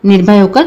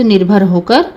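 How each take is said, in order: First: निर्भय होकर with a clear य sound at the end; corrected word. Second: निर्भर होकर read with a plain र, the slip before the fix; misread word. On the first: Narrator reading to listeners, fixes it to निर्भय होकर. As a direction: fix it to निर्भय होकर, glide on य. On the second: Narrator reading to listeners, slips into निर्भर होकर. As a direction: says निर्भर होकर, rolling र in place of य. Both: Real, not acted.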